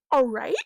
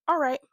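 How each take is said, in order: First: All right? rising, louder and questioning; surprised question. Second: Said in the usual way. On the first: Retold or imitated. Heroine surprised Luther agrees so easily, rising question. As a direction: check if he really means it. She questions his answer.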